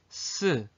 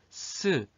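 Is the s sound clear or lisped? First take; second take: clear; clear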